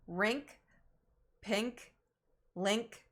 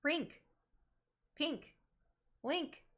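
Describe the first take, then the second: First: "Rink, pink, link" with a lax short I, towards "renk"; careful list, "Rink, pink, link", each vowel opened and tune rising; corrected short I. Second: "Rink. Pink. Link." high, with a tight EE-like vowel; usual ink vowel. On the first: Trying the I sound, not E sound, "Rink, pink, link" with lax vowel. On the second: Testing how they say ink words, "Rink. Pink. Link." with EE-like vowel. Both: Shown as a demonstration. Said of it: "I sound, not E sound?".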